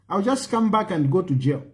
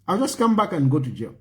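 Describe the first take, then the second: No difference in how they are said.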